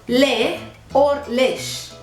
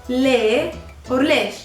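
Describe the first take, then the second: The two takes are said the same way.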